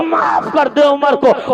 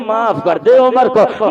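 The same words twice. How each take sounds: First: Put-on calling out slowly to the old mother, beseeching; slow pleading cry. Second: Said in the usual way. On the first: (بوڑھی ماں سے آہستہ اور بلند آواز میں التجا)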